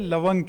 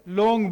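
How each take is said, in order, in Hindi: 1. यह शब्द दो अक्षरों में बोला जाता है, lavang। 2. यह शब्द एक अक्षर में बोला जाता है, laung। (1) "पश्तो में हम इसे लवंग कहते हैं" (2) "उर्दू में लौंग बोला जाता है"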